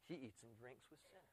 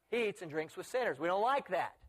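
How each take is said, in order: First: Very hushed, low gossiping aside; disapproving murmur. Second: Acted indignant objection at full voice; open complaint. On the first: Acted. Critics gossiping about who Jesus eats with, hushed disapproval. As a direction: mutter it behind his back. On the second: Critics objecting openly to Jesus's company, mildly indignant.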